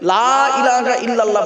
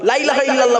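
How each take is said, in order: First: The first vowel is drawn out long. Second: The first vowel is cut short. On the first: There is no deity except God. The speaker calls it right. "লামে টান দেবেন, লয়াকারে টান দেবেন, লা ইলাহা ইল্লাল্লাহ বলবেন" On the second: There is surely a deity besides God. The speaker calls it wrong. "লা ইলাহা ইল্লাল্লাহ বলবেন না"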